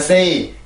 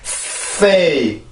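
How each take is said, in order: First: The word is said flat, without a stress. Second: The word is said with a strong stress. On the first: The speaker calls it wrong. "우리나라처럼 이렇게 음절 언어라면 그냥 say" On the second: The speaker calls it right. "영어는 이게 아니라 강세가 있단 말이에요"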